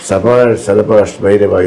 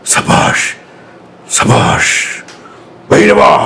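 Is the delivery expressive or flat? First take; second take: flat; expressive. First: It is read plainly, without dramatic modulation. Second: It is delivered with dramatic, varied modulation. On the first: "ഇതിപ്പോൾ ആ modulation ഒന്നും ഓർമ്മ വരില്ല" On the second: "നമ്മളൊരു modulation പറയാം"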